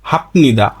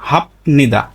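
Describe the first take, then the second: First: A p sound comes before the n. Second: The same.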